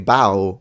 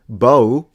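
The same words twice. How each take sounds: First: The vowel rhymes with cow. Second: The vowel rhymes with go. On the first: Bending forward at the waist. "if you mean this" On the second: The weapon that shoots arrows. "if you mean, you know, bow and arrow"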